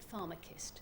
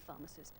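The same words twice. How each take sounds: First: It sounds like 'farm-a-kissed', ending with 'kissed'. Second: It is pronounced the usual way, ending '-cist'. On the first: The speaker calls it wrong. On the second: The speaker calls it right.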